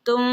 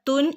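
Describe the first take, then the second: First: The syllable ends with a hidden m-like nasal. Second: The syllable ends with a full n sound. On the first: The speaker calls it right. "നാവ് മുകളിൽ തട്ടാത്ത രൂപത്തിൽ" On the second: The speaker calls it wrong. "ഇവിടെ തുൻ എന്ന് ഓതില്ല"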